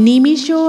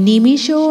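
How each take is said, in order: The two takes are said the same way.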